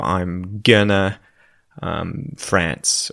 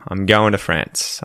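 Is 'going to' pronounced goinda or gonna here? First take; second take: gonna; goinda. First: Going to is reduced to gonna. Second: Going to is reduced to goinda. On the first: The speaker calls it wrong. "you would never say" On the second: The speaker calls it right. "you would say goinda"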